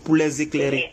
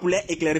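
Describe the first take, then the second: First: 'Les' is linked to 'éclairer' with z. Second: 'Les' is not linked to 'éclairer'. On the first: The speaker calls it right. "il faut faire la liaison" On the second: The speaker calls it wrong. "c'est pas pour les éclairer"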